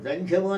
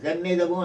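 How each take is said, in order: First: The middle is said with an 'ndhy' cluster. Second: The middle is said with 'nni' and 'da'. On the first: The speaker calls it wrong. "జంధ్యము అన్న పదం లేదు" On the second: The speaker calls it right. "జన్నిదము అనాలి"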